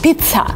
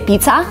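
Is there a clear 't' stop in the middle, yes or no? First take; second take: yes; no. First: The middle has a clear 't' stop with a burst of air. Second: The middle has a plain 'z' sound with no stop. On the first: The speaker calls it right. "with a stop, with kind of t, with air coming out of your mouth" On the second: The speaker calls it wrong. "Because some people say pizza, which is not right"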